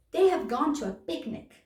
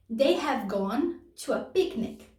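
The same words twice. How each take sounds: First: Said in the usual way. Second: Slowed down for learners; careful slow model sentence. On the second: Shown as a demonstration. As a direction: lay each word out clearly. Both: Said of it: "repeats example sentence".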